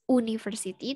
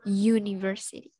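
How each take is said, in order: First: It starts with a plain vowel sound. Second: It starts with a 'y' sound. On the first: The speaker calls it wrong. "bukan university" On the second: The speaker calls it right. "Ada huruf, ada suara Y di situ ya"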